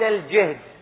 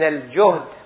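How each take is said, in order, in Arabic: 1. الحركة الأولى هي i. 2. الحركة الأولى هي u. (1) "بالكسر" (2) "بالضم"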